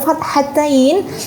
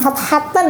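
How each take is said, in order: First: The word ends with an 'ain' sound. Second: The word ends with a plain 'an' sound. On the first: The speaker calls it right. "tapi fathatain" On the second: The speaker calls it wrong. "Jadi menyebutnya bukan fathatan"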